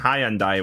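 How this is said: It is said with a British pronunciation. The speaker calls it wrong. "a very British way to pronounce it"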